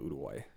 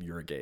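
First: The last syllable has a w sound, like gway. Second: The last syllable sounds like the word guy. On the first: It is the country's actual name. The speaker calls it right. "It's called Uruguay" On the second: It plays on the joke 'you are a guy'. The speaker calls it wrong. "The country is not called Uruguay"

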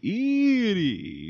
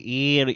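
First: It is said in a high Dracula voice. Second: It is said in a low Igor voice.

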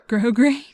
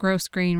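First: The S in the first syllable is silent. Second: The S in the first syllable is pronounced. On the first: The speaker calls it right. "My grandma said you don't pronounce the S" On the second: The speaker calls it wrong. "I think most people call it gross grain ribbon"

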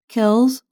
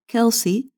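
First: The name is said with one syllable. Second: The name is said with two syllables. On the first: "with one or two syllables" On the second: "with one or two syllables"

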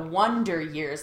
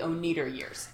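First: The first word is pronounced 'wun-der'. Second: The first word is pronounced 'oh-nye-der'. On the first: It refers to the TV show title. "like the TV show" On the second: It jokingly refers to a film band's name. "like the Oneider Years"

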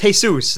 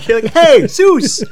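First: It starts with a 'jee' sound. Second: It sounds like 'hey' followed by 'Zeus'. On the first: The speaker calls it right. "It's Jesus" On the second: The speaker calls it wrong. "You were saying it like hey, Zeus!"

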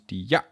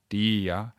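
First: The second syllable is clipped and spat out. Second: The second syllable is held light and full. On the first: The speaker calls it wrong. "the shortening of that second ya becomes" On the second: The speaker calls it right. "heavy, light Baroque phrasing of a sort of"

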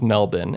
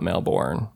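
First: The word is said the local Australian way. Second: The word is said a non-Australian way. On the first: The speaker calls it right. "people from Australia say it's Melbourne" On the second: The speaker calls it wrong. "not Melbourne"

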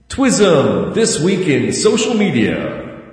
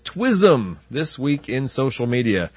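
First: The voice has an added echo effect. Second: The voice is dry, with no echo effect. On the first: The speaker calls it right. "That sounds so much better now" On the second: The speaker calls it wrong. "There was no echo on that"

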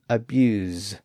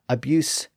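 First: The word ends with a voiced Z sound. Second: The word ends with a voiceless S sound. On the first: It is the verb form. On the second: It is the noun form.

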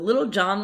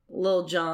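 First: The first word is said fully, in two syllables. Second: The first word is shortened to one syllable.

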